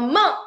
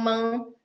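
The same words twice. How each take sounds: First: The vowel is clean, said with the mouth open. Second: The vowel has an extra oo sound added. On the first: The speaker calls it right. "然后把嘴巴怎样打开？" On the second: The speaker calls it wrong. "小朋友容易发出带有乌音的梦"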